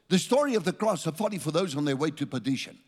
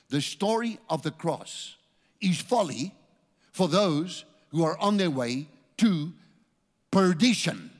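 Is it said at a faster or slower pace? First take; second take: faster; slower. First: It is said at a normal, quicker pace. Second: It is said at a slower pace.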